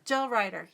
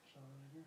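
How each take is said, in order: First: Said in the usual way. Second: Voiceless "Gel Rider" to herself; whispered. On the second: Real, not acted. Reading a brand name.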